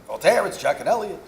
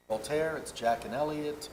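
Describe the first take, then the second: First: Put-on higher, louder Hasidic Jewish landlord accent. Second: Said in the usual way. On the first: Landlords' note read aloud in a Hasidic Jewish accent. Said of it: "I'm trying not to do the accent 'cause it's so tempting". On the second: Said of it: "I'm trying not to do the accent".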